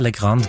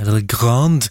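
First: The name is said with a Norwegian pronunciation. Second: The name is said with a French pronunciation. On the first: "Men du kan også si Legrand" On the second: "kan vi uttale det på en litt fransk måte"

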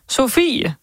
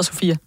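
First: The name is said in a West Jutland accent. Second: The name is said in a standard accent. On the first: This is how the grandfather says the name. "der skal siges på vestjysk" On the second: This is the name's actual form. "selvom hun hedder Sofie"

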